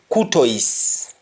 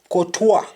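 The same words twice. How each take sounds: First: It is said in an English accent. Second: It is said in a French accent. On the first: "in English we say Courtois" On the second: "And the French say Courtois"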